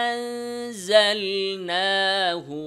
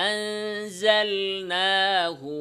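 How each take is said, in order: Both takes have the same delivery.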